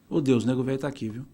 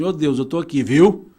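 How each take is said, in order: First: It sounds calm and reassuring. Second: It sounds anxious and pleading.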